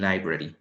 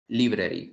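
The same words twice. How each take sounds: First: "library" said LIE-bra-ree with an English long i; correct English pronunciation. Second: "library" said as Spanish lee-breh-ree, as it is written; spelling pronunciation. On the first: Teacher giving students the right way: "library" as LIE-bra-ree. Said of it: "sino que más bien". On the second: Teacher showing students the wrong way: "library" read as spelt. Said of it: "Nunca decimos library". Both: Shown as a demonstration.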